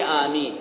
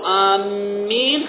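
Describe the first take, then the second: First: The m sound is short and single. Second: The m sound is doubled and held. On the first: O Lord, answer the prayer. The speaker calls it right. "لا نقول آمين إلهي آمين يعني استجب ربي" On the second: We are heading toward or intending something. The speaker calls it wrong. "إذا قلت آمين خطأ يعني بشدة على الميم هذه خطأ"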